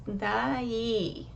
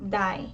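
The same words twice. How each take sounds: First: Daí in two syllables, da-EE, long final i; Daí drawn out, each vowel given its own syllable; two separate vowels. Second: Die as one syllable, vowels glided together; diphthong, no accent. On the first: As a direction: split Daí into a and a stressed i. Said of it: "the A and the I are pronounced separately". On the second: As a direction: run the a and i of die into one sound. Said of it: "did not have an accent, it would be pronounced". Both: Shown as a demonstration.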